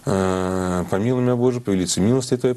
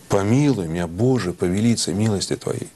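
First: It is rattled off fast and without expression. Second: It is spoken slowly with emotion and expression. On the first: The reader is not really addressing anyone. The speaker calls it wrong. "А что ты тараторишь" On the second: The reader is truly speaking to someone. The speaker calls it right. "И с эмоциями, и с выражением"

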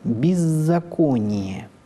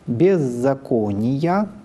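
First: The unstressed vowels are reduced. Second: The unstressed vowels are pronounced full and unreduced. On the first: This is the standard literary style. "в литературном" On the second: This is the church reading style. "В церковном произношении"

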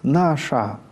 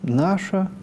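First: The final vowel is a full, unreduced a. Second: The final vowel is a reduced a. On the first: This is the church pronunciation. "в церковном произношении" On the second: This is the literary pronunciation. "в литературном"

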